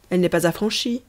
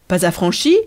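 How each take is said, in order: First: Understated announcement of a problem; matter-of-fact objection. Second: Louder questioning echo, rising at the end; taken-aback question; surprised echo. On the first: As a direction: point it out without fuss. Postman announces unpaid postage. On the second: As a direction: query it in mild disbelief. Addressee echoes the news in surprise. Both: A narrator's reading.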